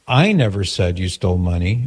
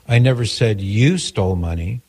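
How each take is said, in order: First: The stress is on the word I. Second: The stress is on the word you.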